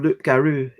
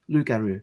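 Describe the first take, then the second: First: A P sound is heard after loo. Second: No P sound is heard after loo. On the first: The speaker calls it wrong. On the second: The speaker calls it right.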